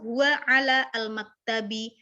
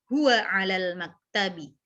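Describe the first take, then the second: First: The article is pronounced fully and separately. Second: The article is merged into the preceding word. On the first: The speaker calls it wrong. "nggak perlu" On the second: The speaker calls it right. "biar ringan langsung aja"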